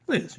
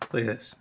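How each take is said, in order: First: Cutesy high-pitched Look at this; high squeal. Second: Said in the usual way. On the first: Real, not acted. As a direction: Look at this in a much higher squeaky voice. Shows the controller twice.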